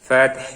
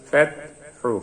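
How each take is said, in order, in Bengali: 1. শব্দটি একটি নরম h ব্যঞ্জনে শেষ হয়। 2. শব্দটি একটি ছোট u স্বরে শেষ হয়।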